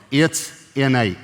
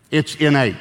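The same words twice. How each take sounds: First: Slow emphatic. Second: Innate landed with a firm falling stress. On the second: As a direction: lean on innate, fall at end. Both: Shown as a demonstration.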